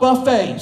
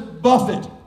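First: The word ends with an 'ay' sound. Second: The word ends with an 'it' sound. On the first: It means a self-serve meal. The speaker calls it wrong. "not buffet" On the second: It means to discipline or strike. The speaker calls it right. "this word is buffet"

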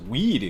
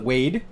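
First: The vowel sounds like 'ee'. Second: The vowel sounds like 'ay'. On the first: The speaker calls it right. "So it's Weed because it's an E" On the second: The speaker calls it wrong. "Some people call it Wade"

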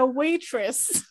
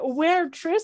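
First: The first syllable sounds like the word 'way'. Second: The first syllable sounds like the word 'where'. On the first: The speaker calls it right. "au lieu de waitress" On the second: The speaker calls it wrong. "where Triss au lieu de waitress"

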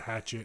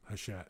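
First: The name is said like the English word hatchet. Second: The name is said in a French way. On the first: The speaker calls it wrong. "as opposed to" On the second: The speaker calls it right. "how to say their name"

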